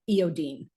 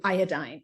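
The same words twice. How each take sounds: First: Iodine said as ee-oh-deen, lightly imitated; light mock of iodine as ee-oh-deen; British iodine. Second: Said in the usual way. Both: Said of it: "as he would call it".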